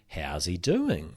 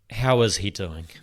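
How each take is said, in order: First: The question sounds mocking and sarcastic. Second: The question sounds sincere and careful. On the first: The asker is taunting the listener. The speaker calls it wrong. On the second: The asker genuinely wants to know. The speaker calls it right.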